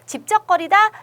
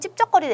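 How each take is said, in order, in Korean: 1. 예사소리이고 부드럽게 나요. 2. 된소리이고 세게 나요. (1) "얘는 예사소리니까" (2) "얘가 된소리면은"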